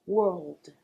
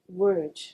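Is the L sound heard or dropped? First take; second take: heard; dropped. First: The word ends with a clear L sound. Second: The word ends without an L sound. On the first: The speaker calls it right. "n'oublie pas de prononcer le L aussi" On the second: The speaker calls it wrong. "qu'ils prononcent cet mot comme word"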